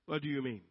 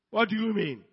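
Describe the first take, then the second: First: Offended big man, held back; restrained indignation. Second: Louder, higher offended protest; indignant outburst. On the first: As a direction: take offence, keeping it contained. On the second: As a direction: act affronted and raise your voice. Offended big man repeats himself louder. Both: Acted.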